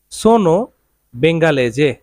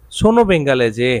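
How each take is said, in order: First: Said in the usual way. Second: "Sono bengalese" spoken very slowly, each syllable stretched; slow, drawn out. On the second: Shown as a demonstration. Teacher slowing down the phrase for his students, very slow. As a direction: stretch out "Sono bengalese" word by word so learners can follow. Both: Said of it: "Italian কি হবে?".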